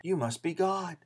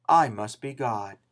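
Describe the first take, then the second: First: YOU lands hard, rest falls soft and quiet; stress on YOU. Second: "I" held long, whole line slowed down; stress on I. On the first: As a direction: lean on "You", then let "must be God" fall away. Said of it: "and they conclude". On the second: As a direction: linger on "I", drag out "must be God". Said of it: "a cat says the same thing". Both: Retold or imitated.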